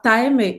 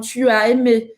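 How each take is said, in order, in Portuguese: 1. O pronome é contraído junto ao verbo. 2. O pronome é pronunciado por extenso antes do verbo. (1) "elas vão falar t'as aimé" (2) "poucas pessoas falam tu as aimé"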